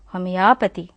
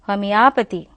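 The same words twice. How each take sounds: No difference in how they are said.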